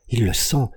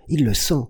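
First: Higher, urgent cry of terror; gamekeeper's first terrified cry; frightened cry. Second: Pitched higher still, panic climbing; gamekeeper's repeated cry, higher and more desperate; rising terrified cry. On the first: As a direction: cry out as the dog senses it. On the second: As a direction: cry it again, terror mounting. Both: A narrator's reading.

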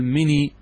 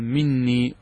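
First: "مني" with a single short n; lightened noon. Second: "مني" with a doubled, held n; original doubled noon. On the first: Teacher showing how some early Arabs spoke, "مني" with single n. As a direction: say "مني" with no doubling on the n. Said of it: "بالتخفيف". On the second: Teacher giving students the standard form, "مني" with doubled n. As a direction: press and hold the n in "مني". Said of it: "الأصل أن تأتي بالنون". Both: Shown as a demonstration.

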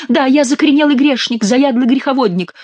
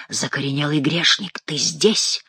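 First: High, hammed-up penitent whine; high mock-pleading gabble; nasal mock confession. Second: Low, soft otherworldly voice; hushed, lower summons; hoarse ghostly voice. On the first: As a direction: confess shrilly through the nose as the fake king. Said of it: "зачастил Шико". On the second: A narrator's reading. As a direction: intone it low, like a hidden voice from above. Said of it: "раздался хриплый и временами свистящий голос".

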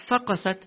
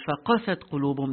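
First: "faqasat" with a higher, punched first syllable "fa"; stress on FA. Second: "faqasat" with the weight on "qa", light "fa"; stress on QA. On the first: Teacher shows the error to students, stressing "fa" in "faqasat". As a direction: wrongly lean on the "fa" of "faqasat". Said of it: "Not the fa". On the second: Teacher shows correct recitation, stressing "qa" in "faqasat". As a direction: keep "fa" light and lean on "qa" in "faqasat". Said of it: "that has to be emphasized". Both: Shown as a demonstration.

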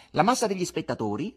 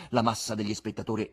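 First: Higher, louder mocking echo; insolent interruption. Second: Said in the usual way. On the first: Buffoon cuts off the patron with his own words, insolent. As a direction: throw the words back with a rising, cheeky tune. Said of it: "lo interruppe l'insolente buffone".

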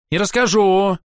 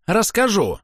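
First: Put-on petulant child stamping, high; sulky insistence; childish tantrum. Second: Higher, falling petulant repeat; stubborn child insisting; childish tantrum. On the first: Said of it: "топнул ногой ... капризного ребёнка". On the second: Acted. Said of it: "на мгновение став похожим на капризного ребёнка".

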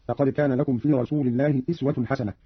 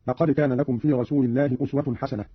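First: أسوة read "iswa", with an i; kasra on hamza. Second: Said in the usual way. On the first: Shown as a demonstration. Teacher shows Qalun's reading, أسوة said as "iswa". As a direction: open أسوة with i instead of u. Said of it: "قرأ قالون بكسر الهمزة هكذا". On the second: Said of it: "قرأ قالون بكسر الهمزة".

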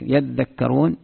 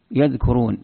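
First: "يذكرون" said yadhdhakkarun; doubled consonants. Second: "يذكرون" said yadhkurun; single dh and k in "يذكرون", nothing doubled; lightened consonants. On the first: Teacher shows the heavy reading, "يذكرون" as yadhdhakkarun. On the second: Teacher shows the light reading, "يذكرون" as yadhkurun. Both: Shown as a demonstration. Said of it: "مشددة ومخففة".

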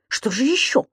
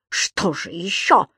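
First: Small, anxious query rising at the end; hesitant, worried question; dreading question. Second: Slow, drawn-out repeat; scornful, lingering echo; mocking echo. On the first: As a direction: ask timidly what else is coming. Lodger dreads what else there is. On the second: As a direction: mimic the question back sarcastically. Landlady mockingly echoes his question. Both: A narrator's reading.

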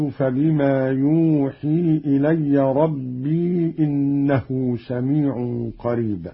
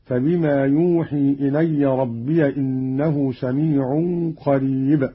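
First: ربي as rabbee, long ee before إنه; still ya. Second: ربي as rabbiya, run into إنه; voweled ya. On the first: Teacher quotes the verse before the variant, ربي as rabbee. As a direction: hold the final ee of ربي. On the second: Teacher shows Qalun's reading, ربي as rabbiya. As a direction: open the ya of ربي to -ya. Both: Shown as a demonstration. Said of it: "بفتح الياء وصلا".

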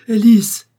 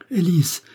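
First: Screaming her name, much higher and louder; frantic shout. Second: Raised high call of a name, first cry; first frantic call to Élise, pitched up. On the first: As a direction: yell it like a madman. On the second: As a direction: call her name, rising panic. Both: A narrator's reading. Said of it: "m'écriai-je comme un fou".

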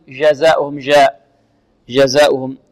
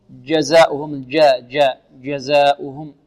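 First: جزاؤهم starting with soft zh; wrong soft J. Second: جزاؤهم starting with a hard dj; correct hard J. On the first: Teacher showing students the wrong soft zh in جزاؤهم. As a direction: soften the J of جزاؤهم to French zh. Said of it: "لا نقول". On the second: Teacher correcting students, hard dj in جزاؤهم. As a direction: stop the breath on the J of جزاؤهم. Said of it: "بل نقول". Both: Shown as a demonstration.

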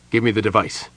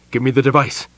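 First: Said in the usual way. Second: Louder, pressing demand; urgent repeat. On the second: A narrator's reading. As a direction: push the words, urgent now. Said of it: "repeated urgently".

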